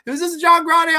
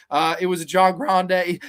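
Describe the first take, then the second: First: Much higher, loud, shouted complaint; hammed-up furious customer; mock outraged yell. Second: Said in the usual way. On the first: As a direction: bellow at the cashier in disbelief. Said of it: "he was so fucking pissed".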